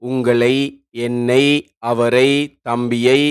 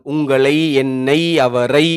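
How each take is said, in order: First: Slow list with ஐ at each word end drawn out; slow teacher examples of ஐ ending; ஐ ending stressed. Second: உங்களை, என்னை, அவரை said very slowly with the final ஐ drawn out; slow repeat so ஐ is heard; even slower teacher repeat of ஐ ending. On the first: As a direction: stress the ஐ in உங்களை, என்னை, அவரை. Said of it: "எடுத்துக்காட்டாக". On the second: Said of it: "ஐ, ஐ என்று கேக்குது". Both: Shown as a demonstration.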